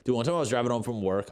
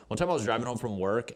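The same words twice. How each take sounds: First: Blurted out fast, then dropped; quick, eager start to the story; rushed start. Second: Said in the usual way. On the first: Real, not acted. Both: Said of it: "I'll get back to that story".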